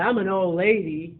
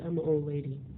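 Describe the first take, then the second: First: It is said with excited, lively energy. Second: It is said flatly, with a deflated tone. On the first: Being old is something to embrace. The speaker calls it right. "Like, you get excited" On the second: Being old is something to minimize. The speaker calls it wrong. "You said, ... That was, uh"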